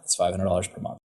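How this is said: The voice stays flat at the end. The speaker sounds confident about the price. The speaker calls it right. "just say it flat"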